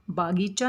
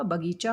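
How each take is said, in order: First: बागीचा with a long aa in the first syllable, baa-gee-chaa; wrong pronunciation. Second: बगीचा with a short a in the first syllable, ba-gee-chaa, said slowly; correct pronunciation. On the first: Teacher showing students the wrong way: बागीचा with a long first aa. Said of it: "बागीचा नहीं होता". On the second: Teacher modelling the right form for students: बगीचा with a short first a. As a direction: keep the first vowel of बगीचा short and clip it. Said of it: "बगीचा होता है". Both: Shown as a demonstration.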